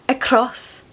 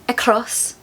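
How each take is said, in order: Both takes have the same delivery.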